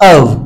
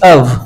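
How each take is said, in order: No difference in how they are said.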